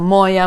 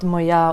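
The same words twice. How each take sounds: First: The stress is moved to a different syllable. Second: The stress falls in its usual everyday position. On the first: The stress is changed as it is sung in a song. "It's like also моя, моя" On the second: This is how it is said in everyday speech. "not моя Україна"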